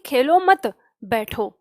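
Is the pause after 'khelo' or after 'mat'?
after mat. The pause comes after 'mat'.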